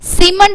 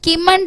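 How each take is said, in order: First: The word begins with an s sound. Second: The word begins with a k sound. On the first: The speaker calls it right. "சிமெண்ட் அப்படின்னு படிக்கணும்" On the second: The speaker calls it wrong. "கிமண்ட் அப்படின்னு படிக்க மாட்டோம்"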